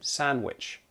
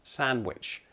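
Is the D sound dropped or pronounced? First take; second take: dropped; dropped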